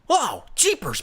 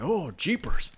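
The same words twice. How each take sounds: First: It is a bright, youthful, cartoonish hero voice. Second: It is an older man's voice. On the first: It imitates a sidekick from an old TV show. "Robin says Jeepers in like Robin and Batman from like the nineteen sixties show" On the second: It imitates a father remarking in the kitchen. "He sounds like an old man"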